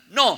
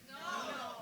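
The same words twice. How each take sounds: First: It is said with more force and energy. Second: It is said with ordinary energy.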